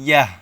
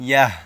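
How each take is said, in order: The two takes are said the same way.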